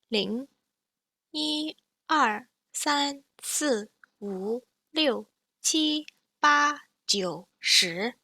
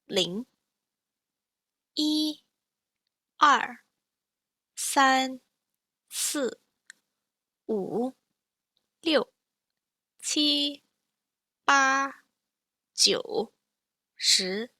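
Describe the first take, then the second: First: The numbers are counted at natural speed. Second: The numbers are counted slowly. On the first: "and then again at natural speed" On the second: "once slowly"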